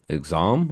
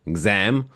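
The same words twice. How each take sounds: First: "exam" with a broad British ah vowel, ig-ZAHM. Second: "exam" with a flat American a, ig-ZAM as in cat. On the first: Saying the word "exam" to his friend, British ah vowel. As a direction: say "exam" the English way, long open ah. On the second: Trying the word "exam" again, American flat a. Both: Shown as a demonstration. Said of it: "I don't know why it's exam".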